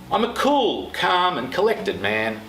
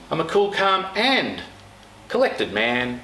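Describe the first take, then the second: First: The word cool carries the strongest stress. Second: The word calm carries the strongest stress.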